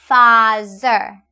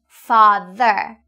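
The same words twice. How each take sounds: First: The middle consonant is not a 'th' sound. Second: The middle consonant is a 'th' sound. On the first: The speaker calls it wrong. "I often hear you say mother or father" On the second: The speaker calls it right. "the correct pronunciation is mother and father"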